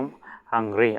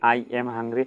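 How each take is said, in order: First: The words 'I am' are contracted together. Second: The words 'I am' are said in full.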